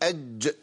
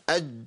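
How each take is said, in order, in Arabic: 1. يُنطق الحرف الأخير مع ارتداد واضح. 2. يتوقف الحرف الأخير فجأة بلا انفراج. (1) "لازم اقول اج" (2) "ما يمشيش"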